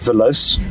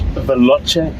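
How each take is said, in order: First: The word is said with a non-Italian pronunciation. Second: The word is said with an Italian pronunciation. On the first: The speaker calls it wrong. "not Veloce, as some people have pronounced it" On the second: The speaker calls it right. "Pronounce it, it's Italian"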